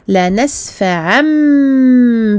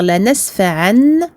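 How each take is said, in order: First: The word ends with a held nasal m sound. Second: The word ends with a plain n sound. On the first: The speaker calls it right. "je dirais la nasfa'am bi et je prolonge la runa du mim" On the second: The speaker calls it wrong. "au lieu de dire la nasfa'an"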